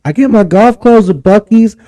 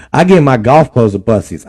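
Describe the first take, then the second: First: Said in the usual way. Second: Buc-ee's said as Bussies; Buc-ee's turned into Bussies; Bussies pronunciation. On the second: Shown as a demonstration. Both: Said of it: "Oh, Bussies".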